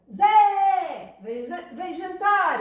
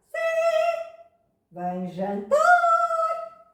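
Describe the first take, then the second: First: High, loud calling out; modern stressed call. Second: Chanted, very high, held monotone intoning; Gregorian-style chant. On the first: Teacher showing how it was not said, shouted call. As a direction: call out with force on the stressed syllable. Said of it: "No latim clássico não era assim". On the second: Teacher demonstrating classical Latin, chanted like plainsong. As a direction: chant it loud and slow on one sustained note. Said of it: "era como os cantos gregorianos". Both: Shown as a demonstration.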